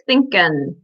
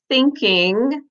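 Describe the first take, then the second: First: The word ends with a plain n sound. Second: The word ends with a velar ng sound. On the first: It suggests a working-class status. "sometimes be heard as in, like thinkin'" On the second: It suggests a middle-class status. "the pronunciation of ing can sometimes be heard as ing, like thinking"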